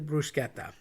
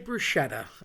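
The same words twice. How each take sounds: First: The middle consonant is a hard k sound. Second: The middle consonant is a soft sh sound. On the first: The speaker calls it right. "technically bruschetta ... The C H is pronounced K" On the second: The speaker calls it wrong. "People say bruschetta. I get why you say it"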